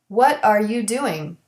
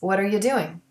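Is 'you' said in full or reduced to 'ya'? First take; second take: full; reduced. First: The word you has its full vowel. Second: The word you is reduced to ya.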